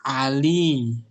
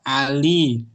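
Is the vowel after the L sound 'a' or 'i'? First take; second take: i; i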